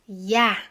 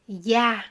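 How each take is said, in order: First: The syllable begins with a y sound. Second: The same.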